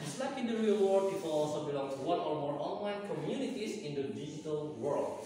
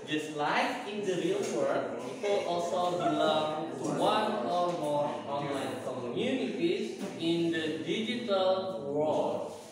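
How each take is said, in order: First: The sentence is read fast. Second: The sentence is read slowly.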